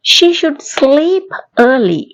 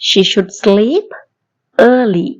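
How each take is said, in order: First: Slow and higher, each word separate; slow model sentence. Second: Said in the usual way. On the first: Shown as a demonstration. Teacher slowly modelling a sentence, higher, for the class. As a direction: lift and slow it for the learners. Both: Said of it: "மறுபடியும் சொல்லி பாப்போமா".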